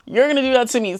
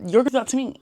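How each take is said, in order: First: Mock suspicious repeat. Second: Suspicious thought. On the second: Retold or imitated. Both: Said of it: "people just think".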